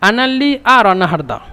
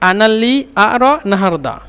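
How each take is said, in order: No difference in how they are said.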